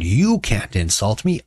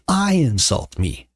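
First: "You" drawn out and pitched up; slow, emphatic "You", rising at the end; stress on You. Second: "I" high and drawn out; slow, emphatic "I", falling at the end; stress on I. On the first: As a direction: lean slowly on "You". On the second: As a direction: hit "I" high, then fall away. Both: Acted. Contrasts who may insult whom.

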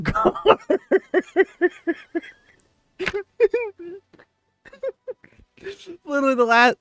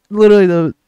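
First: High, fast words through real laughter; can barely get the words out for laughing. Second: Said in the usual way. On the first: Real, not acted. Gamer to viewers, breaking up over the clip, laughing hard.

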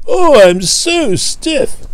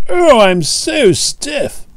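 First: Even higher, very slow, pushing the groan harder; louder stiff groan. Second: Much higher, very slow groaning complaint; stiff groan. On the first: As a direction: groan it again, a bit louder and more desperate. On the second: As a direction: stretch out every word like a creaky old engine. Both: Acted. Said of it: "he groaned".

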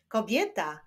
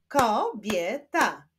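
First: Said in the usual way. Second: "kobieta" slowly split as ko, bie, ta; syllable by syllable. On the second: Shown as a demonstration. Teacher showing syllables to pupils, "kobieta" split in three. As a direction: clap out "kobieta" in three slow beats. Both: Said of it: "Wyklaszczmy sylaby".

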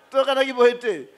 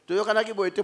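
First: Said through a laugh in a put-on voice. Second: Said in the usual way. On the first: Preacher mimicking a mourner at the wake, laughing. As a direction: chuckle while mimicking the mourner. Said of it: "repeated with laughter". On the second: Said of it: "quoted mourner's reply".

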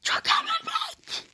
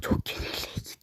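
First: High, slow mock wail; dramatic wail. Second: Breathy whispered lament; whispering. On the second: Pretend. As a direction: whisper it in mock despair. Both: Losing the game, lament.

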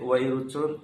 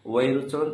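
No difference in how they are said.

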